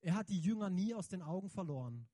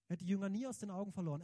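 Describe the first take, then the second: First: Said in the usual way. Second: Fast repeat. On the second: Shown as a demonstration. Preacher repeating his point to the congregation, fast with stress on "nie". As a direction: rattle off "Er hat die Jünger nie aus den Augen verloren" quickly, hitting "nie". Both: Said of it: "repeated faster".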